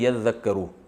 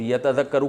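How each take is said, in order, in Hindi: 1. 't' double 'z' में मिल जाता है। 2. 'z' से पहले 't' की आवाज़ बोली जाती है। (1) "पढ़ते हैं यज़्ज़क्करु" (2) "यतज़क्करु को पढ़ते हैं यज़्ज़क्करु"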